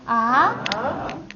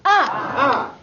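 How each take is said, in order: First: The pitch rises from middle to high. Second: The pitch falls sharply from high to low.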